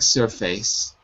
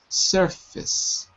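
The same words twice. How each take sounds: First: The second syllable has a full 'face' vowel. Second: The second syllable is reduced to a short 'fis'. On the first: The speaker calls it wrong. "It looks like surface" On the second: The speaker calls it right. "but it's actually surface"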